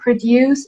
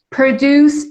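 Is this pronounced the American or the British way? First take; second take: British; American. First: It is said with a British pronunciation. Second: It is said with an American pronunciation. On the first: "is the British pronunciation" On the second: "is American pronunciation"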